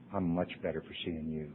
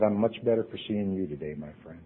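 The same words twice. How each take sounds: First: Much softer, lower echo; [name] gently repeating his kind words. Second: Soft, quiet and sincere; [name] tenderly answering a suicidal friend; warm reply. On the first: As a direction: repeat it almost under the breath. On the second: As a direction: tell him gently he matters. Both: Retold or imitated.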